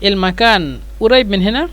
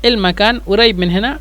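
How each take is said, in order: Both takes have the same delivery.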